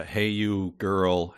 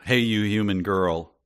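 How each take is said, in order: First: Drawn-out slow read of the quote; slowly savoured quote. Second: Said in the usual way. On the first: Retold or imitated. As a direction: savour each word slowly. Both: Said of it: "I also like that".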